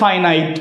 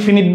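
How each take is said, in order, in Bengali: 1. প্রথম স্বরধ্বনিটি 'eye'-এর মতো শোনায়। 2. প্রথম স্বরধ্বনিটি হ্রস্ব 'i'। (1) "উচ্চারণটা হচ্ছে ফাইনাইট" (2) "অনেকেই ফিনিট বলে"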